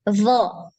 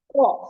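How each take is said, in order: First: Pressed at the front, it sounds like 'zo'. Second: Pressed at the tongue's side, it sounds heavy. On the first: The speaker calls it wrong. "nanti di depan, ini jadi kedengarannya seperti huruf zo nanti" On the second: The speaker calls it right. "tepi lidahnya yang ditekan. ... Lebih gede"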